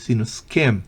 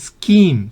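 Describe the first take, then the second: First: The vowel is short. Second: The vowel is long. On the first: The speaker calls it right. "es una E corta" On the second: The speaker calls it wrong. "No skim"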